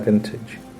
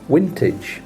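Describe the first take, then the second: First: It is said with an English accent. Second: It is said with a Dutch accent.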